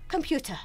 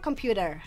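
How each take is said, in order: First: The t sound is crisp and clear. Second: The t sound is soft and weak. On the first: "British accent computer, jadi uh, kalau British T-nya tuh lebih jelas" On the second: "American itu computer, T-nya nggak terlalu ini banget ya"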